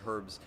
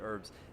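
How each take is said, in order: First: The word begins with a clear h sound. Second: The word begins without any h sound. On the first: This is the speaker's own everyday pronunciation. "I can talk uh, in the normal way. I say herbs" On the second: This is the pronunciation the speaker usually adopts for others. "rather than herbs"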